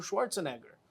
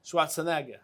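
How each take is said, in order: First: Said in the usual way. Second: Schwarzenegger with a German-style ending; German accent. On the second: Shown as a demonstration. Correcting himself after the accent joke, German-accented name.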